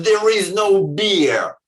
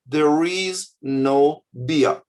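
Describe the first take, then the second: First: Barked out louder and slow, as a rude command; harsh shouted notice. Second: Slow, even and gentle, no edge; calm polite notice. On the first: Kiosk sign imagined as a rude shout at customers. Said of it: "they've written". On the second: Ideal kiosk sign read politely, slow and calm. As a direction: read it as a friendly neutral sign. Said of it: "you could write a normal human way". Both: Shown as a demonstration.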